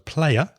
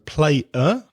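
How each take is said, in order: First: The words run together with a linking y sound. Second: The two words are said separately. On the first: "So player" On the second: "again, that Y sound and the vowel sound"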